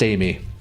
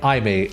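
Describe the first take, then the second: First: The name sounds like Amy. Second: The name sounds like eye-mate. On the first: The speaker calls it right. "it's pronounced Amy" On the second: The speaker calls it wrong. "I've been pronouncing it iMate, like the arcade save data card brand"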